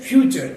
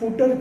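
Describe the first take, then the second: First: The middle sound is a ch sound. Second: The middle sound is a plain t. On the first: The speaker calls it right. "એ છે ફ્યુચર" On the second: The speaker calls it wrong. "પણ એ ફૂટર છે નહીં"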